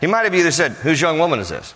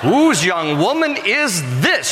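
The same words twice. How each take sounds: First: It is said in a plain, matter-of-fact tone. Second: It is said in a playful, flirtatious tone. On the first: The question is simply asking for information. "Or is he just kind of matter of fact?" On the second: The asker is romantically interested in the woman. "Or he might have been like, yo, yo, yo, yo, mamacita, hoo-hoo"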